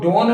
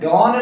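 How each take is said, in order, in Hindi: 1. स्वर 'oh' जैसा सुनाई देता है। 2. स्वर 'aw' जैसा सुनाई देता है। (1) "डोन नहीं" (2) "डॉन नहीं"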